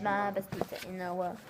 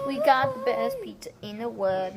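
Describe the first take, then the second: First: Soft, low murmur; quiet. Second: Said in the usual way. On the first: Real, not acted. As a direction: say it softly to yourself. Quiet repeat of the phrase.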